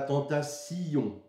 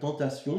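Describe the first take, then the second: First: The ending is split into two syllables. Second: The ending is said as one syllable. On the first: The line needs an extra syllable to reach twelve. "de découper cette syllabe en deux" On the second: This is how the word is normally said. "normalement on dirait"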